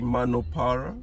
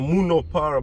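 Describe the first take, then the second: First: The first syllable is said like 'ma'. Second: The first syllable is said like 'mu'. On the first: This is how the locals say it. The speaker calls it right. "So they say Manopara" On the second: This is how a newcomer reads the spelling. The speaker calls it wrong. "nilikuwa nasema Munopara, but that's not the way they pronounce it"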